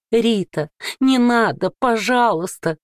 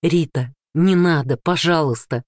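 First: High, warped mimicry of his plea; mock him in a twisted, eldritch voice; distorted mocking voice. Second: Said in the usual way. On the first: A narrator's reading. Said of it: "передразнила Рита мужа искажённым голосом". (искажённый издевательский голос) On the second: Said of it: "взмолился Данил".

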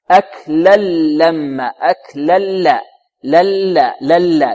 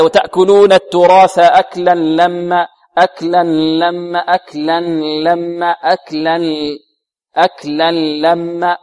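First: Slow أكلا لما with pure l, no n; all lams. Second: Slow أكلا لما with an n hum before the lam; leftover ghunnah. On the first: Teacher shows correct full merging, pure lam in أكلا لما. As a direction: merge أكلا لما fully into a long clean lam. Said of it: "الصحيح أنه هنا بعد الكاف إلى الميم كلها لامات". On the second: Teacher imitates students' faulty merging, nasal n in أكلا لما. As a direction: leak some nasal n into أكلا لما, aklan-lamma. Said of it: "يقول هكذا". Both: Shown as a demonstration.

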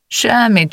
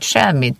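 First: Brushing it off. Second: Said in the usual way. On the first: Acted. Teasing denial, high-pitched.

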